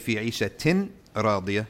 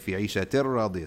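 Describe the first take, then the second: First: The n sound is clearly pronounced before the r. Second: The n sound merges into a doubled r. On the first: The speaker calls it wrong. "you don't say" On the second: The speaker calls it right. "you say"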